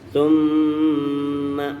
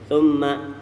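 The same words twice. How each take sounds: First: The nasal m sound is held long. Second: The nasal m sound is cut short. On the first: The speaker calls it right. "tahan sampai tiga harokat" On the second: The speaker calls it wrong. "Jangan Thumma, kurang"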